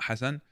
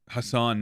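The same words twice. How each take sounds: First: The name is said with an anglicized pronunciation. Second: The name is said with a native pronunciation. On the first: The speaker calls it wrong. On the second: The speaker calls it right.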